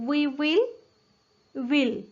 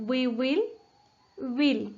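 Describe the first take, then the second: Both takes have the same delivery.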